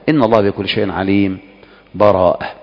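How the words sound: A full stop comes with a new breath. "أو أن تقف"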